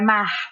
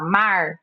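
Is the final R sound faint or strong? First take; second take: faint; strong. First: The final R is soft and nearly silent. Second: The final R is strong and clearly curled. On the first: "O carioca então é o R bem apagadinho" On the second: "a gente já do interior já fala"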